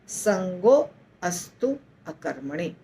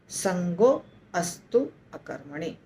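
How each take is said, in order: First: The phrase is split into three separate parts. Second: The phrase is split into three separate parts.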